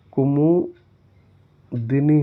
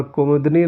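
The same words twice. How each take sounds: First: कुमुदिनी stretched slowly with a clear long i in the middle; कुमुदिनी said slowly and deliberately for the class; correct spelling stressed. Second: Said in the usual way. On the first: Shown as a demonstration. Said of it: "कुमुदिनी होता है". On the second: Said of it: "कुमुदनी नहीं होता है".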